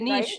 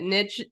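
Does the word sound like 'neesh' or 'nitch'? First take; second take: neesh; nitch. First: The word rhymes with quiche. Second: The word rhymes with riches. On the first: "I've heard people call it a niche too" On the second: "the riches are in the niches"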